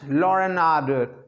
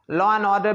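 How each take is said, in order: First: An extra sound intrudes between the words. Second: The words have no added sound between them.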